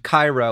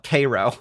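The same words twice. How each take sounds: First: The name is said in its usual international way. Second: The name is said with an American local pronunciation. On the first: This is how the original city is called. "a city named Cairo" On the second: Americans rename the place their own way. "we are America, where you can have a city named Cairo and just call it Cairo"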